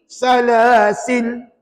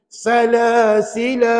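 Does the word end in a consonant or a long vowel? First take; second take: consonant; long vowel. First: The word ends on the consonant 'l'. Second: The word ends with a long 'a' vowel. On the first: "Ataupun boleh juga dibaca begini" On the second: "baca dua harakat"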